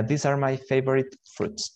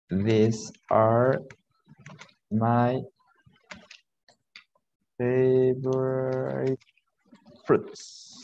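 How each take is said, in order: First: Said in the usual way. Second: Word by word with long gaps; halting, stretched teacher dictation; slow dictation. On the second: Shown as a demonstration. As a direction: draw out "favorite" as if writing it. Teacher dictates sentence while writing.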